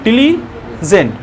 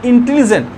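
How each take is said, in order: First: इंटेलिजेंट slowly, broken as "in - tili - jent"; slow syllable-by-syllable इंटेलिजेंट; split in three parts. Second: Said in the usual way. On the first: Shown as a demonstration. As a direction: say इंटेलिजेंट in three separate beats. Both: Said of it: "तीन बार में बोल रहे हैं".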